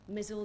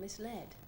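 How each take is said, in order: First: It is said as 'mizzled', rhyming with 'drizzled'. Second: It is said as 'mis-led', with a clear 'led'. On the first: The speaker calls it wrong. "Mizzled, I used to say" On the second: The speaker calls it right. "which sounded so much more interesting than misled"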